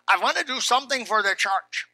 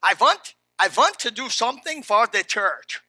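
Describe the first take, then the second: First: Weak attempt at a German accent; lightly attempted, badly faked German accent; terrible German accent. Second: Hammed-up, louder German accent with V for W. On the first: Pastor quoting the short German man offering help, terrible German accent. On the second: Pastor retrying the old German man's offer, hammed-up German accent. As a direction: lean hard into a badly faked German accent. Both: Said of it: "That's a terrible German accent".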